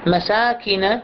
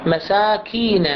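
First: مساكن with a quick short ki, no ee; short kasra. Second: مساكين said slowly, the ki held long like ee; stretched kasra. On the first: Teacher contrasts the correct short kasra for students. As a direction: keep the kaf vowel in مساكن brief. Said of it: "نقرأها مساكن". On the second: Teacher demonstrates the wrong long kasra to students. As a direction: drag out the ki of مساكين. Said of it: "خل أطيلها أكثر". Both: Shown as a demonstration.

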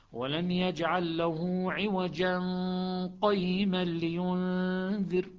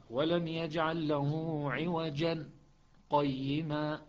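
First: Slow recitation, عوجا flowing into قيما without a stop; Shuba, no pause. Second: Slow recitation, a brief stop after عوجا before قيما; Hafs with a pause. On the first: Teacher showing the class Shuba's reading. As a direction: join عوجا straight to قيما. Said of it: "شعبة هكذا". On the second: Teacher showing the class Hafs's pause. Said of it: "بالسكت". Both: Shown as a demonstration.

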